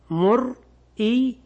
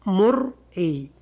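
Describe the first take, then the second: First: مرئي drawn out slowly on a rising tune; original form. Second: مرئي said slowly with the hamza kept; original form. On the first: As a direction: stretch مرئي slowly and lift the end. (مرئي ممدودة بنبرة صاعدة) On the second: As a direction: drawl out مرئي as the full base form. (مرئي ببطء مع إظهار الهمزة) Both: Shown as a demonstration. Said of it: "أصلها".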